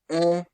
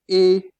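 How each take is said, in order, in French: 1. La voyelle est ouverte, comme dans père. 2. La voyelle est fermée, comme dans été. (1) "Lorsqu'il est ouvert, on le prononce quoi? Est" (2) "Lorsqu'il est fermé, il se prononce et"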